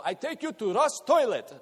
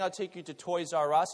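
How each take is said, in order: First: Put-on "Russ Toilet" in a higher, louder Russian-English accent; grandfather's broken English. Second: Said in the usual way. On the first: Preacher imitating grandfather's broken English, higher and louder. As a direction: mimic grandpa mangling "Toys R Us" as "Russ Toilet". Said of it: "he'd go". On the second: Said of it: "instead of saying".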